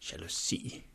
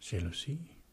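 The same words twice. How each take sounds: First: It is said in a hard, tense tone. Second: It is said in a soft, relaxed tone. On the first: The feeling is being judged or resisted. The speaker calls it wrong. "hård og anspændt" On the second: The feeling is being accepted kindly. The speaker calls it right. "benævne den mere blidt"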